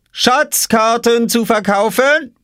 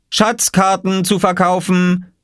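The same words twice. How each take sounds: First: Slow, very high teasing sales call; drawn-out crier's call. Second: Put-on slow, high child calling his wares; drawn-out boyish sales call. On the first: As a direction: hawk the maps pointedly at his sister. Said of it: "rief Oskar hinter seiner Obstkiste". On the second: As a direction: hawk the maps like a market crier. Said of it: "rief Oskar". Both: A narrator's reading.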